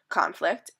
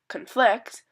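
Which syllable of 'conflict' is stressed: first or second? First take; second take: first; second. First: The stress is on the first syllable. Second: The stress is on the second syllable. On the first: The word is used as a noun. "stress marker placed at the beginning of the word" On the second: The word is used as a verb. "stress marker is placed in the middle of the word"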